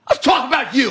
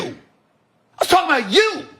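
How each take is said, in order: First: Said in the usual way. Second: Higher, drawn-out shout ending on a rise; slow down and shout it this time; shouted repeat. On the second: Real, not acted. Shouting his point back at the father.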